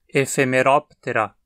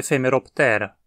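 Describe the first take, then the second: First: The stress falls on the syllable rop. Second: The stress falls on the syllable te. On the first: The speaker calls it right. "O acento cai na sílaba antes dela, a sílaba rop. Dizemos então" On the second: The speaker calls it wrong. "e não"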